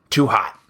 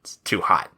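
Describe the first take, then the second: First: Said in the usual way. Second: Hushed unvoiced whisper. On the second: Real, not acted. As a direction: whisper it so nobody hears. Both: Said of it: "keep it down".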